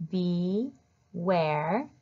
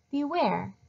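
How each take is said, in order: First: "Beware" as "be", pause, "ware"; syllable by syllable. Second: Said in the usual way. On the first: Shown as a demonstration. Teacher leads readers through challenge words, syllable by syllable. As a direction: split "Beware" into two drawn-out syllables. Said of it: "read them by syllables first". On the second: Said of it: "then blend them together like this".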